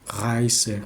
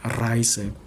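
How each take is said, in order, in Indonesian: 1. Bunyi r lembut, dibuat di belakang tenggorokan. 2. Bunyi r jelas digetarkan di bagian depan. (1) "R-nya itu kayak di belakang gitu" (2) "bukan Reise gitu"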